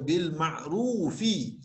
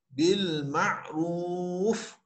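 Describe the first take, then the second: First: The word ends with an extra vowel sound. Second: The word ends on a stopped consonant. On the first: The reading continues into the next word. The speaker calls it wrong. "tidak boleh dibaca bil ma'rufi kalau kita nak berhenti" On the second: The reading stops at this word. The speaker calls it right. "bacaan yang betul adalah bil ma'ruf"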